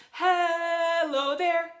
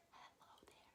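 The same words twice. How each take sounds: First: Sung high and slow as the lead line. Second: Soft whispered echo of the line. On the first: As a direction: sing it for them to echo. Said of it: "you'll repeat it back to me". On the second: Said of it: "like an echo". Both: Shown as a demonstration.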